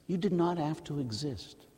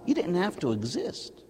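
First: "did not" split apart, "did" hit hardest, softer overall; stress on did not. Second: Said in the usual way. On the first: Shown as a demonstration. Priest repeats it to the congregation, stressing did not.

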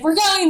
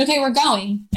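First: High and loud, thrilled certainty; excited declaration. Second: Said in the usual way. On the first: Retold or imitated. Woman telling her husband they must go, excited. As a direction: burst out with it like a sudden conviction. She sees the letter as a sign.

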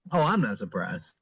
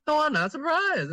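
First: Low, offhand retold reply; nonchalant. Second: High-pitched retold brush-off; mock dismissive. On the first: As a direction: toss it off casually, pitched down. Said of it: "completely nonchalantly said". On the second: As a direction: imitate an unimpressed sister, pitched way up. Re-voicing sister's unimpressed answer.

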